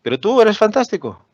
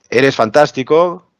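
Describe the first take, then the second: First: Tú pitched high and punched, falling after it; stress on TÚ. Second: Eres fantástico, said slowly with a rising end on fantástico; plain compliment. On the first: Teacher showing how stressing tú changes the meaning. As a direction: lift tú high and let fantástico fall. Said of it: "La entonación cambia". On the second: Teacher demonstrating a plain compliment, slow rise on fantástico. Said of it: "No es lo mismo que yo diga". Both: Shown as a demonstration.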